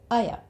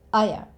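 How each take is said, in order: First: The words blend into one reduced sound, aya. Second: The words blend into one reduced sound, aya.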